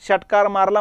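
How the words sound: The first word begins with a sh sound. "षटकार मारला म्हणताना"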